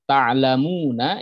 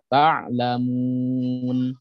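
First: The word ends with a short final vowel. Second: The word ends on a consonant, vowel dropped. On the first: The reader continues without stopping. "kalimat ta'lamuna" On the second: The reader stops at this word. "ketika waqaf dibaca ta'lamun"

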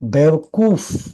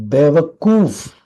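No difference in how they are said.

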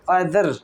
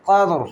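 First: The r sound is light and thin. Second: The r sound is heavy and full. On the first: The speaker calls it wrong. "কাদর হবে না" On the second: The speaker calls it right. "Strongly উচ্চারণ হবে"

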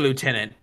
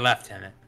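First: It is said with no F sound. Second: It is said with an F sound, like left. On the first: This is how Americans say it. "We say lieutenant" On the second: This is how the British say it. "The British say lieutenant"

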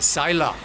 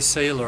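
First: The first vowel sounds like 'eye' in 'sigh'. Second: The first vowel sounds like 'ay' in 'say'. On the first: The speaker calls it right. "you say Sila" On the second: The speaker calls it wrong. "you don't say sailor"

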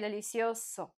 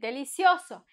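First: No syllable stands out on a higher pitch. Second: One syllable stands out on a higher pitch. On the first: The speaker calls it wrong. "We don't say delicioso" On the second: The speaker calls it right. "higher pitch when we say delicioso"

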